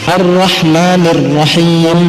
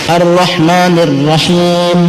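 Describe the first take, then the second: The two takes are said the same way.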